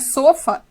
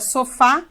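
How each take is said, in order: First: The stress is on the first syllable. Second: The stress is on the last syllable. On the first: The speaker calls it wrong. "A palavra não é sofa" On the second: The speaker calls it right. "é sofá, ela é oxítona"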